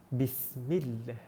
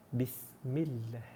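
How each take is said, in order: Both takes have the same delivery.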